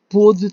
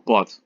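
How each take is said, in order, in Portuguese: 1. A vogal O tônica é fechada. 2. A vogal O tônica é aberta. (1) "o O fechado leva o acento circunflexo" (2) "o O aberto não"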